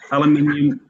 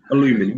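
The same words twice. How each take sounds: First: Said in the usual way. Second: "aluminum" the American way, without the second i; American "aluminum", stressed on the LU; American pronunciation. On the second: Shown as a demonstration. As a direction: say "aluminum" as Americans do, a-LOO-mi-num. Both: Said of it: "you call it an".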